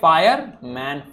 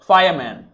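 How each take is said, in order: First: The word is broken into two separate parts. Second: The word is said smoothly as one unit. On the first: "पहले पढ़ा तो fire पढ़ा मैंने, फिर पढ़ा मैन" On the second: "जब मैं साथ में बोल रहा हूं"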